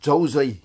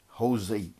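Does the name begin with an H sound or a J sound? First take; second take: J sound; H sound. First: The name begins with a J sound. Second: The name begins with an H sound. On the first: "we will read it as Jose" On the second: "in Spanish it is read as Jose"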